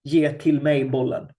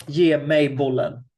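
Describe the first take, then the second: First: "Ge till mig bollen" read as clumsy Swedish; awkward Swedish example. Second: "Ge mig bollen" read as natural Swedish; Swedish example. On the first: Teacher reads the awkward Swedish line to her students. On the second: Teacher reads the natural Swedish line to her students. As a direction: say "Ge mig bollen" as a native Swede would. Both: Shown as a demonstration. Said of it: "You can hear the difference".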